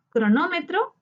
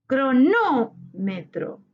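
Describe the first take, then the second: First: Said in the usual way. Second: Cronómetro very slowly, NÓ held long; tonic syllable stressed. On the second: Shown as a demonstration. Teacher marking the tonic syllable for students, NÓ drawn out in Cronómetro. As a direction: stretch NÓ in Cronómetro, pause, then finish. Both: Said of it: "identificar la sílaba tónica".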